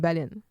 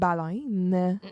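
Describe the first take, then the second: First: The word is pronounced in a plain, unmarked way. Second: The word is pronounced in a strongly marked way. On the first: Another person's way of saying the word. "Maria dit baleine" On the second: One person's way of saying the word. "Baleine très prononcée"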